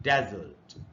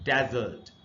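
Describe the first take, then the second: First: The stress is on the first syllable. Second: The same.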